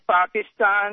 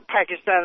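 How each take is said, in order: First: The first syllable does not sound like pack. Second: The first syllable sounds like the word pack. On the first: The speaker calls it right. "it is Pakistan" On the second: The speaker calls it wrong. "Pakistan like a pack of wolves"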